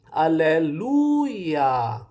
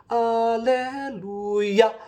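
First: The word is said gently, stressing lu. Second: The word is hit hard and forcefully. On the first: The speaker calls it right. "ilambing pod na ... Ang accent ana naa sa lu" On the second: The speaker calls it wrong. "ayaw gibundak ng iya"

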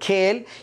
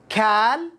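First: The vowel is a fronted 'ay' sound. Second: The vowel is an open 'ah' sound. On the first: "ولا تقل كيل" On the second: "لا تقل كال"

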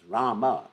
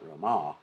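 First: The name is called out, like a cry. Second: The name is said plainly, as a statement. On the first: It cries out to someone for help. The speaker calls it right. "It's Rama. We're crying out" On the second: It simply names someone. The speaker calls it wrong. "It's not Rama"

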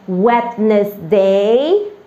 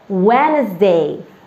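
First: The D in the middle is pronounced. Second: The D in the middle is silent. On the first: The speaker calls it wrong. "used to pronounce it as Wednesday? That is the wrong one" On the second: The speaker calls it right. "The D has to be silent and we have to say it Wednesday"

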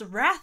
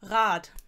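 First: The name ends with a soft 'th' sound. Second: The name ends with a hard 't' sound. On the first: The speaker calls it wrong. "It is not pronounced Wrath in German" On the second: The speaker calls it right. "It's pronounced Rat"

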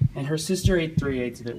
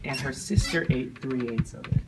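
First: It is said at normal speed. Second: It is said more slowly.

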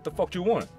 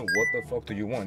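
First: The opening word and 'do' are dropped. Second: Every word of the phrase is said in full. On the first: "저는 이제 그 발음할 때" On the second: "원래는 이제 풀었으면은"

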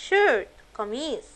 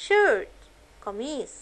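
Both takes have the same delivery.

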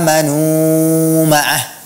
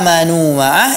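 First: The vowel is stretched out extra long. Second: The vowel is held for a normal short length. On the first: The speaker calls it wrong. "membacanya lebih panjang dari biasanya" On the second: The speaker calls it right. "itu semuanya dibaca dengan dua harakat"

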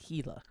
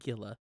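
First: The word begins with an H sound. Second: The word begins with a hard G sound. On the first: The speaker calls it right. "but it's Gila. H-E-E-L-A" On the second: The speaker calls it wrong. "It's spelled Gila"

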